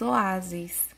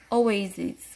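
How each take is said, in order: First: The first vowel is a plain "o". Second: The first vowel glides as "ou". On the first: "em português nós falamos oásis" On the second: "a letra O, ela vai ter o som de OU"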